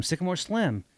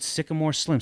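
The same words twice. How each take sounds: First: Higher and softer, tasting the name "Sycamore Slim"; savoring the name. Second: Said in the usual way. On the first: Retold or imitated. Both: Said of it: "that's good".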